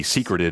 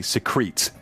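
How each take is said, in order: First: "secreted" said like the noun secret, SEE-krit-ed; "secreted" as secret plus -ed; mistaken pronunciation. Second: "secretes" stressed on the second syllable, sih-KREETS; long ee in the end of "secretes"; corrected pronunciation. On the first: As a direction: stress the first syllable of "secreted". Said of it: "I've always read this". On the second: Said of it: "it actually secretes". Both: Shown as a demonstration.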